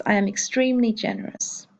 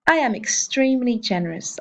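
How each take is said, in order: First: "I am extremely generous" repeated a little softer, falling at the end; teacher's quieter echo of "I am extremely generous". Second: "I am extremely generous" said in a clear English voice; teacher's first English take of "I am extremely generous"; English model sentence. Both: Shown as a demonstration. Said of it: "Un exemple avec generous".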